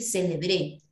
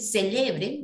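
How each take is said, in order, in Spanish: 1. El acento está en la última sílaba. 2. El acento está en la segunda sílaba.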